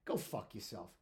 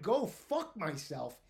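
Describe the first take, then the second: First: Low, soft retold insult; subdued parting curse; under the breath. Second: Slow, drawn-out indignant repeat; retold outrage, every word stretched; incredulous echo. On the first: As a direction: toss it off quietly under your breath. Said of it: "under his breath". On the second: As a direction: throw the insult back in disbelief.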